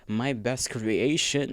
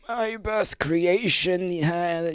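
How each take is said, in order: First: It is read in his normal voice. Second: It is read in a put-on old man voice.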